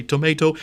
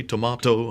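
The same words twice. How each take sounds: First: Tomato with a long AY, to-MAY-to; American-style pronunciation. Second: Tomato with a broad AH, to-MAH-to; British-style pronunciation. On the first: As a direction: say tomato with AY in the middle. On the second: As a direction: say tomato with AH in the middle. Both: Shown as a demonstration. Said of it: "you hear that famous song".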